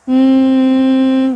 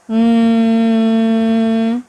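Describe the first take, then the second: First: The hum is on a medium pitch. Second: The hum is on a low pitch. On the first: "nadanya agak setengah uh, tinggi" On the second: "awalnya di suara rendah"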